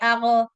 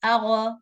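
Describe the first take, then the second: First: The consonant ends with a bouncing release. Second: The same.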